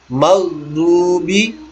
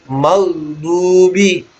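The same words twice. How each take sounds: Both takes have the same delivery.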